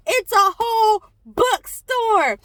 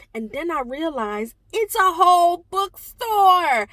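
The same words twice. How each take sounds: First: Higher and louder, stressing whole with delight; amazed emphasis. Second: Said in the usual way. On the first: Real, not acted. Realizing the table is a whole bookstore, amazed emphasis. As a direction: land on whole like it just hit you.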